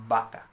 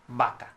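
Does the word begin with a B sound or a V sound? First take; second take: B sound; B sound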